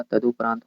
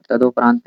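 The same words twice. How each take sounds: First: "तदुपरांत" said as tadu-paraant, with short u; correct pronunciation. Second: "तदुपरांत" said as tado-praant, with o; wrong pronunciation. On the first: Teacher correcting for students, "तदुपरांत" with short u. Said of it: "तदुपरांत होता है". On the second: Teacher showing students the error, "तदुपरांत" with o for u. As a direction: turn the u of "तदुपरांत" into an o. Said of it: "तदुपरांत नहीं होता". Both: Shown as a demonstration.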